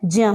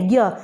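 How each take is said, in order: First: The syllable is said like jya. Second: The syllable is said like gya. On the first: This is the pure pronunciation. The speaker calls it right. "सही उच्चारण क्या होता है, ज्य होता है" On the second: This is how people commonly say it. The speaker calls it wrong. "वैसे हम बोलते क्या है"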